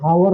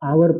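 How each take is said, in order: First: The word begins with an audible h sound. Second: The word begins directly with a vowel sound. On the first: The speaker calls it wrong. "इसको भी हम लोग हावर नहीं पढ़ते" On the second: The speaker calls it right. "इसको आवर पढ़ते हैं"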